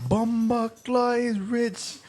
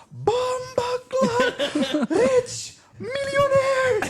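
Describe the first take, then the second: First: High, slow Jamaican amazement; Jamaican accent. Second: Very high, drawn-out Jamaican yell, laughing; Jamaican shout. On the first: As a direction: marvel in a mock Jamaican accent. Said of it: "And he's like". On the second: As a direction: scream it slowly in mock Jamaican amazement. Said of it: "He's like". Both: Retold or imitated.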